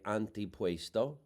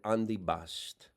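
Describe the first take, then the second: First: It is said with an American pronunciation. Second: It is said with an Italian-dialect pronunciation. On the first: "Americans would say antipuesto" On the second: "My mother said andibast"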